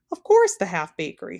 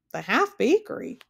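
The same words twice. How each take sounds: First: Louder, impatient retort; snapped. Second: Puzzled, higher question on "half bakery". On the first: King answering Milo's interruption, snapped. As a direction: snap back with a loud start. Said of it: "snapped the king". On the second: Milo interrupting the king about "half bakery", questioning. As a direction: query "The half bakery?" with pitch raised. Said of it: "questioned Milo". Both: A narrator's reading.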